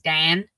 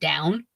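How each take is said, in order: First: It is said in a Pittsburgh accent. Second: It is said in a standard accent. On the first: "will play it up if like on certain words like Dan" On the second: "instead of down"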